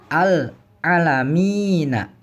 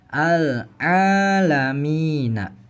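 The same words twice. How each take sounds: First: The vowel after the ain is short. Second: The vowel after the ain is held long. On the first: The speaker calls it wrong. "Bukan al-alamina" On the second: The speaker calls it right. "tapi ainnya dibaca panjang"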